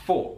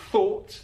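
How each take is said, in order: First: "for" said with an f sound instead of th; th fronting, f for th. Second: Said in the usual way. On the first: Shown as a demonstration. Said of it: "he says f". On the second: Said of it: "So instead of".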